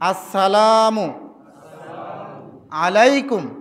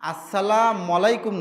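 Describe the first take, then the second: First: Assalam ends with a clear final 'u' sound. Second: Assalam ends without a final 'u' sound. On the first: The speaker calls it right. "আবার আসসালামু, আসসালামু বলেন" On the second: The speaker calls it wrong. "আসসালাম আলাইকুম না"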